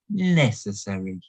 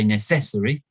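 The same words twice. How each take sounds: First: The stress is on the first syllable. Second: The stress is not on the first syllable. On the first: The speaker calls it right. "We say necessary. We put the stress on the first syllable" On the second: The speaker calls it wrong. "We don't say necessary"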